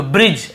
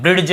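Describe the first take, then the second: First: ब्रिज with J straight after the vowel; silent-D pronunciation. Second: ब्रिज said as brid-j, D audible; wrong sounded-D pronunciation. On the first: Teacher confirming the reading for students, ब्रिज without D. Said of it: "ऐसे पढ़ रहे हैं". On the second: Teacher showing the reading to avoid, ब्रिज with D. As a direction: say ब्रिज with a hard D before J. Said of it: "नहीं पढ़ रहे". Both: Shown as a demonstration.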